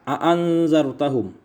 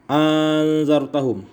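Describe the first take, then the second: First: The second glottal stop is softened toward a vowel. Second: A long vowel precedes the softened glottal stop. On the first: "dijadikan hamzah itu di antara hamzah dan ha" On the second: "wa idkhali alifin bainal musahhalati wal ukhra"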